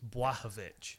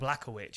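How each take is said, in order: First: The name begins with a W sound. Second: The name begins with an L sound. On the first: The speaker calls it right. "It's a W sound" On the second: The speaker calls it wrong. "It's not an L sound. It's not Błachowicz"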